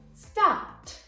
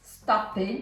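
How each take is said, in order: First: The ending is a plain t sound. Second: The ending is not a plain t sound. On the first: The speaker calls it right. "but we're gonna say stopped" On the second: The speaker calls it wrong. "we're not going to say stopped"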